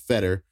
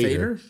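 First: The first vowel is a short 'eh' sound. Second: The first vowel is an 'ay' sound. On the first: This is how most people say the name. The speaker calls it wrong. "Everybody in the world pronounces it Fetter" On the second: This is how the name is really said. The speaker calls it right. "It's actually pronounced"

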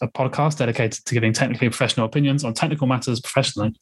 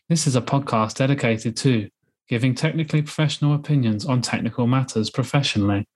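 First: It is said fast and nervously. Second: It is said slowly and carefully.

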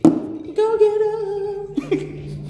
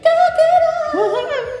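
First: It is said quietly and plainly. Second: It is said loudly with emphasis.

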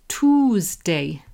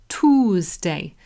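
Both takes have the same delivery.

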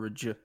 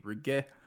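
First: The G is soft, as in gem. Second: The G is hard, as in go. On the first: "I don't know if it's a hard or a soft G" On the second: "I don't know if it's a hard or a soft G"

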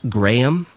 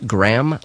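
First: The name is not said like the cracker. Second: The name is said like the cracker. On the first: The speaker calls it right. "I'm told that's pronounced Graham" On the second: The speaker calls it wrong. "not Graham, like the cracker"

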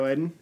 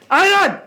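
First: The name is said at a normal volume. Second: The name is yelled very loudly.

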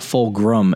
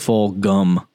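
First: The name is said with an R sound. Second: The name is said without an R sound. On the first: The speaker calls it wrong. "It's not Fulgham" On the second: The speaker calls it right. "It's Fulgham. There's no R"

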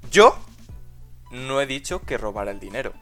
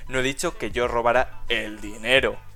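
First: The stress is on the word dicho. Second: The stress is on the word dinero.

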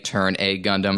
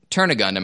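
First: The 'A' is stressed like a letter name. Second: The 'a' is weak and unstressed. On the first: "emphasizing the capital A" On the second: "I used to always call it Turn a Gundam as opposed to emphasizing the capital A"

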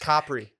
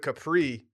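First: Capri is said the Italian way. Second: Capri is said the American way. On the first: This is the proper local pronunciation. The speaker calls it right. "That's how you say it" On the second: This is how uninformed tourists say it. The speaker calls it wrong. "All these stupid Americans out there, they're all saying like"

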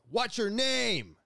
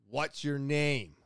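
First: It is yelled loudly. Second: It is said at a normal volume.

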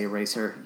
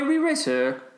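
First: The word starts with a plain 'e' sound. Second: The word starts with an added 're' syllable. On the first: The speaker calls it right. "Just say eraser" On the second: The speaker calls it wrong. "She does say re-racer"

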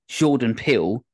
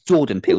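First: The name is said with a French-sounding pronunciation. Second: The name is said with a plain English pronunciation. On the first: The speaker calls it wrong. "I keep saying it like that, like he's French" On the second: The speaker calls it right. "It's Jordan Peele"

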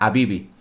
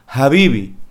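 First: The word begins with a vowel, no h. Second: The word begins with a breathy h sound. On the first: "la H no se pronuncia. Habría que leerla habibi" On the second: "si vamos al inglés, la H es más una ha"

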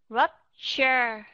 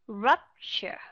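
First: Both vowels are said fully and clearly. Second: One vowel is reduced to a light schwa. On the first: "đều là âm âm short u hết" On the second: "nếu chúng ta dùng schwa sound thì chúng ta sẽ nghe như thế này"

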